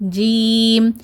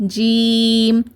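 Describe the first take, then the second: No difference in how they are said.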